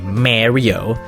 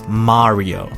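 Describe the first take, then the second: First: The first vowel has the usual English sound. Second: The first vowel is neither long nor short. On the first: The speaker calls it wrong. "like when people say Mario. Nuh-uh" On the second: The speaker calls it right. "it's Mario, okay?"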